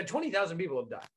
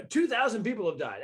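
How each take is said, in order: First: "twenty" leaned on, quick and dropping away softer; quickly fix it to "twenty", saying it softly and fast; mock self-correction. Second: Said in the usual way. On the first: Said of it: "He goes, I mean, uh". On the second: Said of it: "Or he said, you know".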